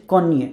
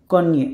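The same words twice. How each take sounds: The two takes are said the same way.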